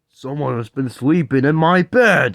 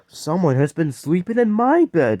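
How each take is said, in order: First: It is said in a deep, gruff voice. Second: It is said in a medium-sized voice.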